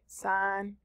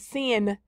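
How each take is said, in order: First: The vowel sounds like the one in pine. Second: The vowel sounds like the one in pin. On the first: The speaker calls it right. "These are the buttons that we will be working with" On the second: The speaker calls it wrong. "I usually hear students mispronounce it"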